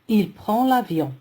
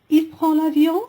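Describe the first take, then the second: First: The voice falls at the end, as a statement. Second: The voice rises at the end, as a question.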